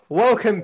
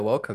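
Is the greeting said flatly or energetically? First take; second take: energetically; flatly. First: It is said with lively, energetic gusto. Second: It is said flatly, with little energy.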